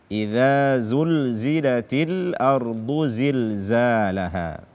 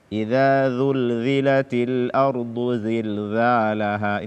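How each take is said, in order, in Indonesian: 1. Bunyi z diucapkan kuat. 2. Bunyi z diucapkan lemah.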